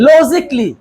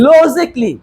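No difference in how they are said.

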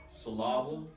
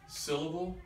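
First: The stress is on the second syllable. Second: The stress is on the first syllable. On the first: "I moved the accent from each of those syllables" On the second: "I moved the accent from each of those syllables"

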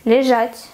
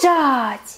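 First: It is said in a neutral tone. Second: It is said in a bright, positive tone.

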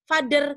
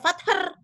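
First: The middle consonant is a voiced 'dh' sound. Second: The middle consonant is not a 'dh' sound. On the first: The speaker calls it right. "dia dibaca father karena konsonannya beda" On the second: The speaker calls it wrong. "dia nggak dibaca father"

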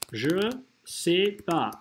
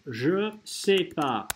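First: The syllable 'ne' is left out. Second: The syllable 'ne' is left out.

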